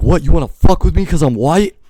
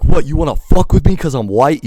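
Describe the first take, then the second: First: High, loud shout, fire in it; furious challenge. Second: High, loud confrontational yell; furious challenge. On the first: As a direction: bellow it like the fire of roaring lions. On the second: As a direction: fire it back, yelling. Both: Retold or imitated. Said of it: "I'm like".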